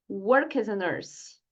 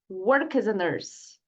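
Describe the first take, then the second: First: The words run together into one flow. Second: The same.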